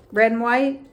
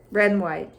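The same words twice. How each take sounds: First: Red and white with a lifted rising tune on red; rising first call. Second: Red and white dropped low with a falling tune on red; falling echo. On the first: Teacher naming colours with a rising lilt. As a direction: toss it up like a question. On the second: Teacher echoing colours, falling and lower. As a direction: settle it down as the answer. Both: Shown as a demonstration. Repeating colour pair as refrain.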